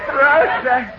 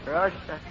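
First: It is called with strong feeling. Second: It is called flatly, without feeling.

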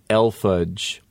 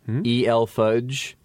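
First: EL is spoken as one single syllable. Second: EL is spoken as two separate letters. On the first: The speaker calls it wrong. "a friend who says El fudge, almost elfudge" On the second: The speaker calls it right. "I say E-L fudge"

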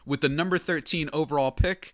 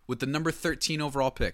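First: It is said in a formal, announcer-like put-on voice. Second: It is said in a plain, casual speaking voice. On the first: The speaker calls it right. "my commissioner voice" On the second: The speaker calls it wrong. "I didn't do it in my commissioner voice"

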